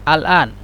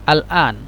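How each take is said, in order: No difference in how they are said.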